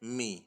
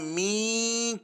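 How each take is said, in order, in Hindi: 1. स्वर को छोटा रखा गया है। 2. स्वर को लंबा खींचा गया है। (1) "बल्कि मीम जेर मी" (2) "न मी खींचना है"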